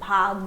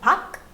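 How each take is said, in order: First: The word ends with a g sound. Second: The word ends with a k sound. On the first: The speaker calls it right. "but I'll pronounce it as bhag" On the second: The speaker calls it wrong. "This is supposed to be a k sound"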